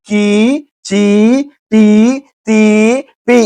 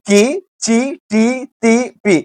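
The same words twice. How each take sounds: First: కి, చి, టి, తి, పి each with a drawn-out 'ee'; long vowels. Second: కి, చి, టి, తి, పి each with a short 'i'; short vowels. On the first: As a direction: stretch every vowel in కి, చి, టి, తి, పి. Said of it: "అలాగే left leg చూడండి". (కి, చి, టి, తి, పి దీర్ఘంగా సాగదీస్తూ) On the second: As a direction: keep every vowel brief in కి, చి, టి, తి, పి. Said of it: "right leg చూడండి ఏముంది". (కి, చి, టి, తి, పి హ్రస్వంగా) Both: Shown as a demonstration.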